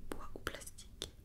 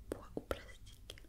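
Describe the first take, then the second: No difference in how they are said.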